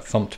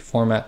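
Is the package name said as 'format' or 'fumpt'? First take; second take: fumpt; format. First: It is said as the short syllable 'fumpt'. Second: It is said as the full word 'format'. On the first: "technically it is fumped" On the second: "I tend to call this the format package"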